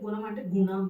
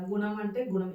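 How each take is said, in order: First: గుణం with the ణ clearly curled back; Kannada-style గుణం, tongue back on ణ; Kannada retroflex ణ. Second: Said in the usual way. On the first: Shown as a demonstration. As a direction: make the n in గుణం a careful retroflex. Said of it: "అనా పలుకుతారు అక్కడ". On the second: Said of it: "తెలుగులో మనం normal గా పలికేస్తాం".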